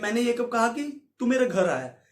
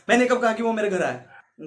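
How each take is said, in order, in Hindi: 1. वाक्य सामान्य गति से बोला गया है। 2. वाक्य तेज़ी से और जल्दबाज़ी में बोला गया है। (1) "नॉर्मल वे में बोलता हूं" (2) "पंद्रह पे कर दूंगा, तो मैं तेईस बोल दूंगा"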